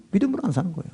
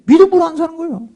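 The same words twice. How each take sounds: First: Much softer murmured repeat, leaning on 안; quiet echo. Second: Higher, fast, pressed on 믿음으로 with a falling end; emphatic. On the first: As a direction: let it fall away to a murmur. (안에 무게를 두고 훨씬 작게 중얼거리듯) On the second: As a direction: punch 믿음으로 hard and quickly. (믿음으로를 높고 빠르게 강조) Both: Acted. Repeats the line differently.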